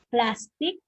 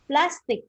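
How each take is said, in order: First: PLAStic, stress on the first syllable. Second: PlasTIC, stress on the last syllable, drawn out; second-syllable stress. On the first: Teacher quizzing the class, stressing plastic on PLAS. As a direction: say plastic with the weight up front, PLAS-tic. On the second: Teacher quizzing the class, stressing plastic on TIC. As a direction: say plastic with the weight on the end, plas-TIC. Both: Shown as a demonstration. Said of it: "the correct answer is letter A".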